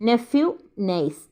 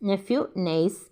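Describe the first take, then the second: The two takes are said the same way.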